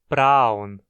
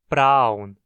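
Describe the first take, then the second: No difference in how they are said.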